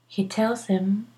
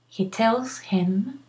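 First: The h of him is dropped and linked. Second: The h of him is clearly pronounced. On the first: The speaker calls it right. "it's more natural not to pronounce the H, like here" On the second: The speaker calls it wrong. "you can pronounce the H. You can say"

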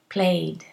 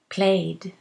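No difference in how they are said.

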